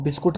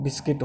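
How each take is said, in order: First: "बिस्कुट" with an oo in the second syllable; regional Hindi pronunciation. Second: "बिस्किट" with a short i in the second syllable; English pronunciation. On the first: Teacher quoting the local Hindi form, regional pronunciation. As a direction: say "बिस्कुट" the Punjabi or Bagri way. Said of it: "Punjabi या बागड़ी में हम हिंदी में". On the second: Teacher correcting the local form for students, English pronunciation. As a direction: say "बिस्किट" the English way, kit not kut. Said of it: "लेकिन English में बिस्किट होता है". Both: Shown as a demonstration.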